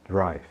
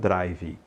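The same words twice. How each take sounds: First: The word ends cleanly on the consonant. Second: An extra vowel is sounded after the final consonant. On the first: The speaker calls it right. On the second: The speaker calls it wrong.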